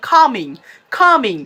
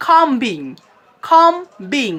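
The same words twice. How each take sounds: First: কামিং with silent b, "KO-ming"; correct pronunciation. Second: খামবিং with a sounded b, "kom-bing"; two separate beats, "kom-BING", for খামবিং; common mispronunciation. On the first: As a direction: leave out the b in কামিং. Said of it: "আপনারা উচ্চারণ করবেন". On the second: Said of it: "আমরা অনেকেই উচ্চারণ করি". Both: Shown as a demonstration.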